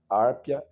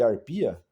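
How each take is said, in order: First: The stress is on the first syllable. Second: The stress is on the second syllable. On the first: This is the older pronunciation learned in school. "é nessa pronúncia" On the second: This is the newer pronunciation many people use today. "muita gente hoje, inclusive da minha idade, chama de arpia"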